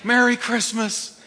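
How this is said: It is said in a warm, loving tone. The greeting is given out of love. The speaker calls it right. "Get full of the love of God and say"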